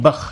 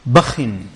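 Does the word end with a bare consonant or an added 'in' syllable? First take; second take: bare consonant; added 'in'. First: The word ends on a bare consonant. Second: The word ends with an added 'in' syllable. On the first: "you can say with the sukoon" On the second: "with a kasrah bit tanween"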